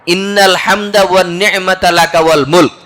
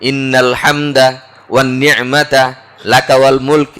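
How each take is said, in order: First: The phrase flows in one breath without pauses. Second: The phrase is broken up by several short pauses. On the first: The speaker calls it right. "এটা একসাথে।" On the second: The speaker calls it wrong. "এইভাবে গদ বেঁধে একটু থেমে থেমে পড়ি।"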